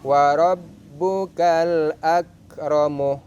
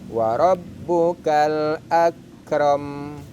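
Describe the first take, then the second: First: The phrase ends with a final 'u' vowel. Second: The phrase ends on the 'm' consonant. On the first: The reading continues without a stop. "Akramu mim berharakat dhammah" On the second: The reading stops at this word. "mimnya dibaca sukun"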